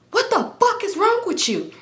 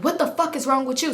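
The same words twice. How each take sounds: First: High mock yell of outrage; exaggerated high-pitched scolding; angry outburst, imitated. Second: Milder indignant comeback, slightly raised pitch; a touch of exasperation, little shouting; retort, retold. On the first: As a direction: imitate him hollering in disbelief. His acted angry outburst after braking. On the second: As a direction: throw the question back, less forcefully. Her acted reply, less forceful.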